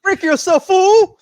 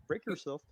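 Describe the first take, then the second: First: Huge high yell of a quoted line; shouted movie quote. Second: Quiet muttered quote. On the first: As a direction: bellow it like the villain. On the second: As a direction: murmur it to yourself. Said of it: "Wait. Oh". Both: Retold or imitated.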